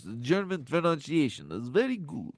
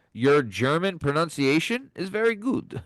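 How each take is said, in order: First: Softer, hammed-up Transylvanian accent; German attempt sliding into cartoon Dracula. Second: Said in the usual way. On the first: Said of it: "went to Transylvania right there".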